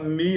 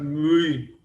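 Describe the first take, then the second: First: The vowel is a plain, unrounded i. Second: The vowel is a rounded, French-like u. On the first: The speaker calls it wrong. "A gente fala mi" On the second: The speaker calls it right. "a pronúncia melhor, mu, é uma coisa meio francesa, a mistura de u com i"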